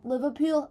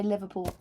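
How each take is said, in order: First: Higher, hammed-up Liverpool twang; exaggerated Liverpool accent. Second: Said in the usual way. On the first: Shown as a demonstration. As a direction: lay the Liverpool accent on thick. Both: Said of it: "That's me saying any word".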